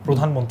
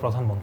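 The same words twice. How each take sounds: First: The first syllable is said with an o vowel. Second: The first syllable is said with an a vowel. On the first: The speaker calls it right. "নিচে রফলা থাকলে maximum শব্দই ওকারান্ত হবে" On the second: The speaker calls it wrong. "অনেকে বলে প্রধানমন্ত্রী"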